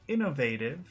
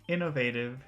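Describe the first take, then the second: Both takes have the same delivery.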